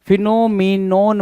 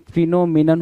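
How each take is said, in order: First: फिनोमिनोन with a full "non" at the end; wrong pronunciation. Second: फिनोमिनन with a short, weak "nan" at the end; correct pronunciation. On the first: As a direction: say फिनोमिनोन the wrong way, ending in an open "o". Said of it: "फिनोमिनोन बोल रहा है". (गलत उच्चारण: फिनोमिनोन, आख़िर में "नोन") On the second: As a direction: say फिनोमिनन correctly, last syllable reduced. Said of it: "आपको पता है फिनोमिनन होता है जी". (सही उच्चारण: फिनोमिनन, आख़िर में हल्का "नन") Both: Shown as a demonstration.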